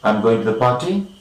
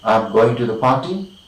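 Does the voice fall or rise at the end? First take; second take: rise; rise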